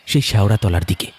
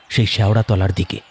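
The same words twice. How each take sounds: The two takes are said the same way.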